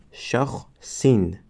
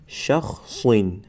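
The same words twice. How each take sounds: First: "شخصین" with the plain unchanged ending; wrong reading. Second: "شخصین" with the changed "-in" ending; correct reading. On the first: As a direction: demonstrate "شخصین" as the mistake. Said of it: "و نه اینکه". ("شخصین" با تلفظ نادرست) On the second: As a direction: model "شخصین" the right way. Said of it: "از همین سبب ما می خوانیم". ("شخصین" با تلفظ درست پایان) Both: Shown as a demonstration.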